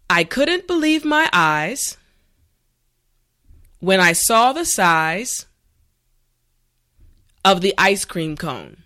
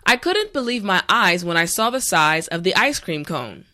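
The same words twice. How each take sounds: First: The sentence is said slowly and carefully. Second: The sentence is said at a natural pace. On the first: "this time repeat after me" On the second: "this time we will go at a more natural pace"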